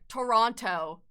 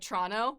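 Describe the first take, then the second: First: Toronto is pronounced the way outsiders say it. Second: Toronto is pronounced the way locals say it. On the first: Other people say it this way. The speaker calls it wrong. "they're like" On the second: The speaker says it this way. The speaker calls it right. "I'm like"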